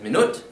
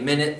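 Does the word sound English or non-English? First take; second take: non-English; English. First: It does not sound like English minute. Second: It sounds like the English word minute. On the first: This is the original pronunciation. The speaker calls it right. "because that's the original pronunciation" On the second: This is a borrowed, English-like pronunciation. The speaker calls it wrong. "some Dutch speakers say minute though, like the English minute"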